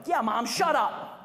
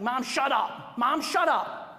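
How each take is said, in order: First: Slow, deadpan mock put-down of mom; siding with the teen. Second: Mock bratty teen yelling at mom, a bit louder; rude teen snapping. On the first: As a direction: drag it out, teasing mom alongside the teen. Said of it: "I've been known to go". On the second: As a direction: snap at mom like a rude teenager. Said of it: "the senior says something like".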